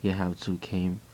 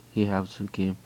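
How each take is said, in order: Both takes have the same delivery.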